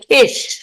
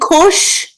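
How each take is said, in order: First: The word has an ee vowel. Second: The word has an oo vowel. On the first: This is the Southeastern Polish dialect form. "they would say, they say Kish" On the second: This is the usual, non-regional form. "Instead of saying Kush"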